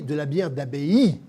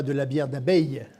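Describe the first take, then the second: First: "d'abbaye" said clearly as "a-bé-i", the right word; careful correct "d'abbaye"; correct pronunciation. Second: "d'abeille" said like the insect, the mistaken word; mock the wrong "d'abeille"; "d'abeille" as the faulty joke form; wrong pronunciation. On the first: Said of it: "on dit". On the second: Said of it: "et non pas". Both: Shown as a demonstration.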